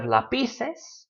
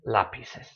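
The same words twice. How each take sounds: First: Lapices wrongly stressed as la-PI-ces; stress on middle syllable. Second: Lapices stressed as LA-pi-ces; weight on the opening LA of lapices; stress on first syllable. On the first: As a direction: lean on PI in lapices. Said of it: "So instead of lapices". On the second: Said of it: "It still falls on the A". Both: Shown as a demonstration.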